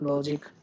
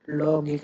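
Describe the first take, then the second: First: The middle consonant is a soft j sound. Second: The middle consonant is a hard g sound. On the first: The speaker calls it right. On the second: The speaker calls it wrong.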